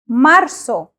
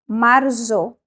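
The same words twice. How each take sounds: First: The consonant before the final vowel sounds like S. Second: The consonant before the final vowel sounds like Z. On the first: The speaker calls it right. "We say marzo with an S sound" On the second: The speaker calls it wrong. "So we do not say marzo"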